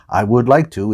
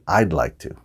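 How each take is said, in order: First: The word 'would' is said in full. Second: The word 'would' is contracted to 'I'd'. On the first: It sounds correct but not like a native speaker. "I would like to is fine, but you're not a native speaker" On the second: It sounds like a native speaker. "Native speakers say"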